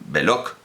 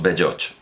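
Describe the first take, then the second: First: The name ends with a hard k sound. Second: The name ends with a ch sound. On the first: "Todo el mundo decía eh, Belloc, creo, como Hilaire Belloc" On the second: "digamos Belloch"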